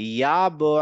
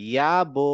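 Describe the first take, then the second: The two takes are said the same way.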